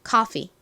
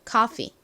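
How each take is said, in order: The two takes are said the same way.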